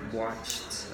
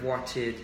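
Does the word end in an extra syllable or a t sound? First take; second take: t sound; extra syllable. First: The ending is pronounced as a short t sound. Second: The ending is pronounced as an extra syllable. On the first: The speaker calls it right. "it's a t sound" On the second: The speaker calls it wrong. "many English learners want to say like watch it uh, with ed sounds"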